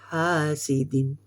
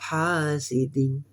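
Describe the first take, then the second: No difference in how they are said.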